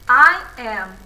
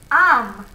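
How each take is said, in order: First: There is a break between I and am. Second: The two words are joined as one syllable. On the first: The speaker calls it wrong. "essa quebra de, de, na voz" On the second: The speaker calls it right. "A gente fala de uma vez"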